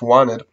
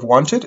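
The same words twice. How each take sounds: First: The T after the N is left out. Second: The T after the N is clearly pronounced. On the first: "we're not pronouncing the T there" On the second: "Instead of wanted"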